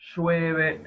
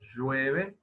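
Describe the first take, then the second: First: The first consonant is voiceless. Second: The first consonant is voiced. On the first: "el tercer caso, que es parecido a la primera articulación, lo que pasa es que es un sonido sordo" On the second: "el primer caso"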